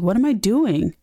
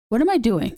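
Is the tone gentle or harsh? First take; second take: gentle; harsh. First: It is said in a gentle, reflective tone. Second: It is said in a harsh, berating tone. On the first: The speaker is calmly reflecting on themselves. The speaker calls it right. "be nicer to yourself" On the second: The speaker is scolding themselves. The speaker calls it wrong. "But you don't have to say it like that"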